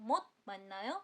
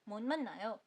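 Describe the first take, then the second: First: A t sound is heard before the m. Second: An n sound replaces the t. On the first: "इसको आप बोल सकते हो मोत मननायो" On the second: "आप उसको और नॉर्मली बोल सकते हो"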